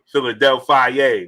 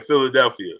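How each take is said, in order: First: Philadelphia drawn out slowly, ending "fie-ay"; slow, playful Philadelphia with a "fie-yay" ending; playful mispronunciation. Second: Said in the usual way. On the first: Real, not acted. Playful drawn-out twist on name.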